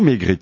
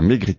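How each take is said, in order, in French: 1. Le T final est muet. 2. Le T final est prononcé. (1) "Maigrit ou Maigrit?" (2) "Je crois qu'on prononce le T à la fin"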